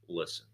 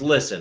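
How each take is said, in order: First: The word sounds calm, firm and solid. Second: The word sounds condescending and dismissive. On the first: A real point is coming, said with respect. The speaker calls it right. "Barack Obama was so fucking solid with that" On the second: The listener is being told to shut up. The speaker calls it wrong. "it's always kind of like condescending"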